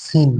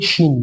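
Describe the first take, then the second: First: "সিন" with a light hissed s, not sh; thin "সিন". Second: "শিন" opening on a full sh, not s; thick "শিন". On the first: Teacher shows students the letter sin, thin s in "সিন". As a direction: say "সিন" with a thin, plain s sound. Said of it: "ওটা পাতলা হয়েছে". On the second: Teacher contrasts shin with sin, thick sh in "শিন". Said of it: "এটা একটু মোটা উচ্চারণ হবে". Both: Shown as a demonstration.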